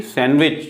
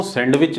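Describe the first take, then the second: First: सैंडविच as "san-wich", no d; silent D. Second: सैंडविच as "sand-wich", d heard; D wrongly sounded. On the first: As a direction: leave out the d in सैंडविच. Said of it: "बल्कि सैंडविच". (सैंडविच में डी silent) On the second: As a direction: pronounce the d in सैंडविच. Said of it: "सैंडविच नहीं बल्कि". (सैंडविच में डी का गलत उच्चारण) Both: Shown as a demonstration.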